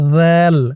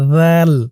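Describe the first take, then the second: The two takes are said the same way.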